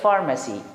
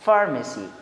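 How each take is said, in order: Both takes have the same delivery.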